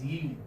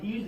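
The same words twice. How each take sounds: First: "yield" with a clear opening y; "yield" said as "yee-ld", y intact; correct yield. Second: "yield" without the y, like "eeld"; "yield" mispronounced, opening on a bare ee; wrong yield. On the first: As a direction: sound the y glide before the ee in "yield". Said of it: "this is yield". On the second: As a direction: drop the y glide at the start of "yield". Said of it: "This is not yield". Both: Shown as a demonstration.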